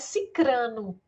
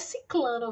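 First: The middle syllable has an R sound. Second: The middle syllable has an L sound. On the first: The speaker calls it right. "É cicrano. Cicrano, a pronúncia" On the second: The speaker calls it wrong. "Não é ciclano"

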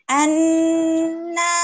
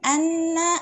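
First: The doubled n is held and pressed. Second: The doubled n is released quickly. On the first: The speaker calls it right. "harus kita tekan lagi" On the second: The speaker calls it wrong. "bukan anna"

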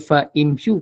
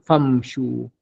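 First: Fa and imshu are said as separate parts. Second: The i drops, joining fa straight to mshu. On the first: The speaker calls it wrong. "Kita tak baca fa imshu" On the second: The speaker calls it right. "kena baca famshu"

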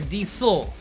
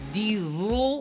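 First: The middle consonant is an s sound. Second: The middle consonant is a z sound. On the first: "like S" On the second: "like Z"

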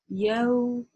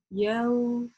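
Both takes have the same delivery.

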